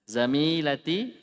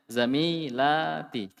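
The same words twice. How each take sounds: First: The vowel before the t is short. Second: The vowel before the t is long. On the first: The speaker calls it wrong. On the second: The speaker calls it right.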